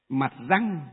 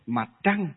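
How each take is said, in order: First: The second word begins with a plain r sound. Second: The second word begins with a curled-tongue tr sound. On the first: This is the older translators' form. "các cụ ngày xưa viết là mặt rời, mặt răng" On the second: This is the current standard spelling. "hơi uốn lưỡi lên một tí"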